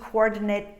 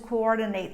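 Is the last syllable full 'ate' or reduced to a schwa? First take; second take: reduced; full. First: The last syllable is a short reduced schwa. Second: The last syllable is a full 'ate' sound. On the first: The word is used as an adjective. "If it's a noun or an adjective, what we have is a short, reduced sound with the sound of schwa" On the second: The word is used as a verb. "If it's a verb, it's going to be long, ate"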